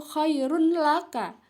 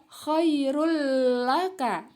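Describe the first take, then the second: First: KHAIRUN LAKA with the final n sounded; as written, unmerged. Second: KHAIRUL LAKA with a long held l, no n; merged idgham reading. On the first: Teacher reading the written form, n left clear. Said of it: "tulisannya di situ". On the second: Teacher showing how it is read, l doubled. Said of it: "Ya, dibaca". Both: Shown as a demonstration.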